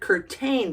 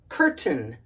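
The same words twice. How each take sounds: First: The second syllable has a long A vowel. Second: The second syllable has a reduced schwa vowel. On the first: The speaker calls it wrong. "the A and the I make the long A sound" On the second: The speaker calls it right. "not here because of the schwa"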